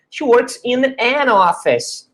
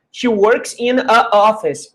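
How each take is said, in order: First: "an office" with the n linking into office; correct article demo. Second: "a office" said with two vowels run together, the a flowing straight into office; wrong article demo. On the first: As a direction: say "an office" clearly as the right form, n joined to the vowel. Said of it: "por isso que é she works in an office". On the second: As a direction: deliberately say "a office" as the wrong example. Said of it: "Imagina como é que ficaria o som assim". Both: Shown as a demonstration.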